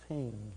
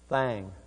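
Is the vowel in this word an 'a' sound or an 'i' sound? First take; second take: i sound; a sound. First: The vowel is an 'i' sound. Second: The vowel is an 'a' sound. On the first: The speaker calls it right. "we pronounce it thing" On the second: The speaker calls it wrong. "And then she said, thang"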